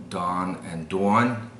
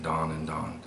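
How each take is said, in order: First: New York "dawn and dawn", second one "dwawn"; New York accent, open first vowel, rounded gliding second. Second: "dawn and dawn" with one identical vowel in both; merged vowels. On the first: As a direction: split the two words like a New Yorker. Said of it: "So in New York". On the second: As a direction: say "dawn" both times as "dahn". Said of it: "are the same". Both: Shown as a demonstration.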